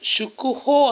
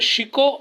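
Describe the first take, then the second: First: The first vowel is a 'u' sound. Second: The first vowel is an 'i' sound. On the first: It means majesty or grandeur. The speaker calls it right. "ಶುಕುಹೋ ಅಂತಾರೆ" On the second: It means terror. The speaker calls it wrong. "ಕೆಲವರು ಉಚ್ಚಾರಣೆ ಮಾಡುವಾಗ ಶಿಕೋ ಅಂತ"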